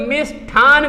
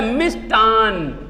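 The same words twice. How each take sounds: First: मिष्ठान split, with a breathed TH, "mish-THaan"; common mispronunciation. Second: मिष्ठान slowly with unaspirated T, "mish-Taan"; correct pronunciation. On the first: Retold or imitated. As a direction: show the faulty aspirated TH in मिष्ठान. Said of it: "लोग मिष्ठान कर देते हैं". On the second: Shown as a demonstration. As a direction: stretch मिष्ठान on a plain T. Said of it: "क्या होता है?".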